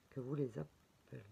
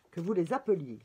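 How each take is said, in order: First: "appeliez" swallowed, the ending cut short; "appeliez" mumbled softly with its ending dropped; doubtful pronunciation. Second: "appeliez" fully pronounced, ending clearly sounded; louder, confident "appeliez" with its ending clear; corrected pronunciation. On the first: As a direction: say "appeliez" quietly and clipped, unsure of the form. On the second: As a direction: say "appeliez" out loud, crisp and corrected. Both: Shown as a demonstration. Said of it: "j'ai peut-être fait une faute".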